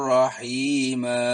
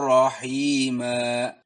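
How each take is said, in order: No difference in how they are said.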